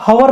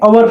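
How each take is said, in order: First: The word begins with an h sound. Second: The word begins with a vowel sound. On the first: The speaker calls it wrong. "इसको हवर नहीं पढ़ेंगे" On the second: The speaker calls it right. "अवर पढ़ेंगे"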